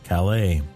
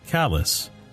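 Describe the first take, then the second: First: The word ends with an 'ay' sound. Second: The word sounds like 'callus'. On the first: This is how outsiders say it. "Down East Mainers don't pronounce it Calais" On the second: This is how locals say it. "They pronounce it callus"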